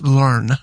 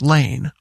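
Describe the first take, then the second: First: The name rhymes with 'turn'. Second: The name rhymes with 'cane'. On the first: This is how the family said it in Germany. "I was told it was pronounced Learn" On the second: This is how the family says it in America. "it's pronounced Lane"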